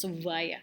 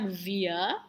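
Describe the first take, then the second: First: "via" said as VY-uh; corrected pronunciation. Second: "via" said as VEE-uh; wrong pronunciation shown. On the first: Teacher gives the correction, "via" as vai-uh. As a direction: open "via" with an eye sound, vai-uh. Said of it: "it is not via, it's via". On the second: Teacher shows what it is not, "via" as vee-uh. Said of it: "so it is not via". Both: Shown as a demonstration.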